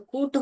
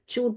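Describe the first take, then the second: First: The word begins with a k sound. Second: The word begins with a ch sound. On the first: "ये क डालेंगे तो कूट हो जाएगा" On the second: "च डालेंगे तो चूट हो जाएगा"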